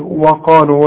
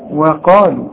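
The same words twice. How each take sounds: First: The opening w sound is heavy and thick. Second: The opening w sound is light and thin. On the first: The speaker calls it wrong. "قلت لي وقالوا وده خطأ" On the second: The speaker calls it right. "الواو دائما في القرآن مرقق"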